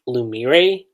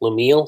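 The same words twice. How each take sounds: First: Lumire drawn out, ending in a ree sound; translation's pronunciation. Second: Lumille ending on an L sound; alternate pronunciation. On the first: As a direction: say Lumire slowly as loo-mee-ray. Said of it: "the translation I read was". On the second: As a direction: say Lumille as loo-mee-ul. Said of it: "but here it's, um". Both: Shown as a demonstration.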